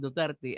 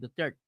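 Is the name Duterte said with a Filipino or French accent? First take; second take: Filipino; French. First: The name is said with a local Filipino accent. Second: The name is said with a French accent.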